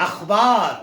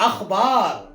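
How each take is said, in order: The two takes are said the same way.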